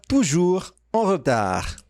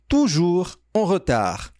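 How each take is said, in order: Both takes have the same delivery.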